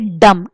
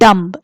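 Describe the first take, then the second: First: The final b is silent. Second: A b sound is heard at the end. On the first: The speaker calls it right. "So we say dumb" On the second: The speaker calls it wrong. "not dumb. Dumb is the incorrect pronunciation"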